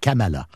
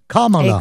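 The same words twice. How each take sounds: First: The name is said with French-style pronunciation. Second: The name begins like the English word comma. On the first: The speaker calls it wrong. "on le prononce un peu en français" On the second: The speaker calls it right. "la façon exacte de prononcer son nom ... Comme une virgule en anglais"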